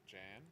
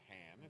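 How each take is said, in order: First: The word begins with a hard J sound. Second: The word begins with a breathy H sound. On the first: The speaker calls it right. "It's not a silent J or a, a Spanish J" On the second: The speaker calls it wrong.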